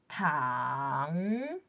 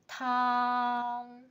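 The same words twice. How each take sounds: First: The pitch dips low and then rises. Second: The pitch stays high and level. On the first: "Third tone" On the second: "First tone"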